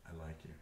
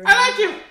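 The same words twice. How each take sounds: First: It is said in a natural voice. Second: It is said in a put-on voice.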